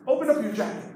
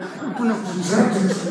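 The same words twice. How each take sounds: First: It is said with the mouth open normally. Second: It is said through clenched teeth.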